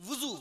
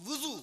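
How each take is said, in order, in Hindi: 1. पहला स्वर 'u' है, जैसे wuzu में। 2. पहला स्वर 'u' है, जैसे wuzu में।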